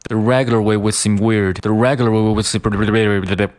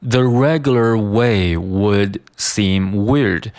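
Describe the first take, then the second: First: "The regular way would seem weird" run quickly together; fast weak "would". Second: "The regular way would seem weird" slow, each word distinct; slow careful reading. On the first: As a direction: rush through "would", barely there, d dropped. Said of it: "把这个would读得非常快". (快速连读弱读) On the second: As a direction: spell out "would" in full, unhurried. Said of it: "它的速度会被读得非常的快". (慢速逐词朗读) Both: Shown as a demonstration.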